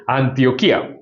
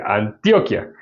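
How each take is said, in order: First: "Antioquía" with a strong KÍ; stress on the I. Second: "Antioquia" stressed an-TIO-kia; stress before the ending. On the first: Preacher shows how the Bible's city is pronounced, stress on the I. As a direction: hit the í near the end of "Antioquía". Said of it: "así es que se pronuncia". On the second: Preacher contrasts the Colombian department's name, stress on TIO. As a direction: hit TIO in "Antioquia", short unstressed kia. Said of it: "Ya es diferente". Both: Shown as a demonstration.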